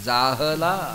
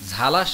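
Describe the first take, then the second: First: The word is said in three syllables. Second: The word is said in two syllables. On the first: The speaker calls it right. "जाहला हला" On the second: The speaker calls it wrong. "झाला शब्द नाही ज्ञानेश्वरी"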